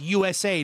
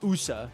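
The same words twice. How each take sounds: First: Each letter is said separately. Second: The letters are run together as one word. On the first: The speaker calls it right. "it's U S A" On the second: The speaker calls it wrong. "you don't say acronyms as like one word"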